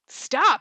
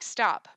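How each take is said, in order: First: "Stop" is said with strong emphasis. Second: "Stop" is said flatly, without emphasis.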